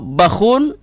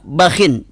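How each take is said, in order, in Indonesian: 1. Berakhir pada kh ditambah -un. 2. Berakhir pada kh ditambah -in. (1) "didhammahkan dengan tanwin"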